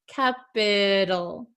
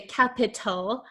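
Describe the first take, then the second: First: The middle T is a soft, D-like flap. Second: The middle T is a crisp, true T sound. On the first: The speaker calls it right. "a flap T, which sounds like a soft D" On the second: The speaker calls it wrong. "we do not pronounce it in American English like a true T sound"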